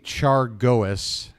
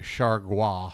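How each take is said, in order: First: The name is said with a flat American pronunciation. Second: The name is said with a foreign-sounding pronunciation. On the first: The speaker calls it wrong. "that sounds like an idiotic American reading a menu" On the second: The speaker calls it right. "It's got to be something like"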